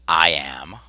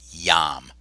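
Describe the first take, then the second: First: The word begins with a separate vowel sound. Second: The word begins with a Y sound. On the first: The speaker calls it wrong. "That's not pronounced I am" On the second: The speaker calls it right. "It's just yam. That I, when it comes before a vowel, is just like a Y often"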